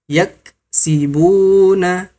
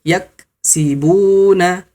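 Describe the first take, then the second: The two takes are said the same way.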